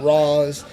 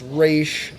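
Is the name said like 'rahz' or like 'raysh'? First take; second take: rahz; raysh. First: The name is said like 'rahz'. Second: The name is said like 'raysh'. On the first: The speaker calls it wrong. "not Ra's" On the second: The speaker calls it right. "it is pronounced Raish"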